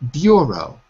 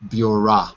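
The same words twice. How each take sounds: First: The word is said slowly and carefully. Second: The word is said quickly with a reduced vowel. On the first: "say it slowly" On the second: "When you say it quickly"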